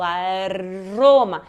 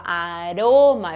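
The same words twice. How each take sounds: First: "aroma" slow, becoming "a-rrroma" with long roll; strongly trilled R. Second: "aroma" lower and drawn out, single tap; one flick only on the R of "aroma"; weak tapped R. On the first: Teacher turning weak R strong, long rolled R. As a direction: pull the R of "aroma" into a vibrating trill. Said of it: "só que vai vibrar mais". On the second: Teacher showing the take to change, single tapped R. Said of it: "Ao invés de falar aroma". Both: Shown as a demonstration.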